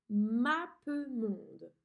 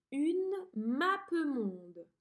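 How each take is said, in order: First: Mappemonde split slowly into syllables; very slow dictation. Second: Mappemonde drawn out slowly; slow dictation. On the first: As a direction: spell out mappemonde by ear. (mappemonde syllabe par syllabe) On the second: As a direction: dictate Une mappemonde clearly. (mappemonde dicté lentement) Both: Shown as a demonstration. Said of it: "Appuie sur pause et écris ce mot".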